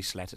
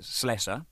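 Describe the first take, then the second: First: Slesser slipped out as "Sletter"; mispronounced surname. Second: Slesser with a clear S in the middle; corrected surname. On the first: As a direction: say Slesser with a T for the middle S sound. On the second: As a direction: say Slesser correctly, S sound not T. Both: Real, not acted. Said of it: "didn't mean to get it wrong".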